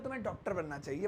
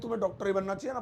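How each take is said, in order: First: It is said as gentle, friendly advice. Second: It is said with forceful, insistent emphasis.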